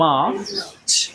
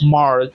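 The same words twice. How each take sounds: First: The r is dropped, giving a long ah vowel. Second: The r after the vowel is clearly pronounced. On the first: This is the British way of saying it. "ব্রিটিশরা বলে থাকে হলো মার্চ। তারা এই আরটাকে আ বলে থাকে" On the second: This is the American way of saying it. "আমেরিকানরা এই আরটাকে বলে থাকে হলো আর"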